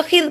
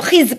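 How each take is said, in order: First: खिज ending in a soft th as in "this"; tongue between teeth at the end of खिज; soft dhal ending. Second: खिज ending in a firm buzzing z; hard Z ending. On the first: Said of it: "अगर जाल होता तो". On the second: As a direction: buzz the last sound of खिज hard. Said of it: "जा मैंने आपको बताया सख्ती वाला". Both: Shown as a demonstration.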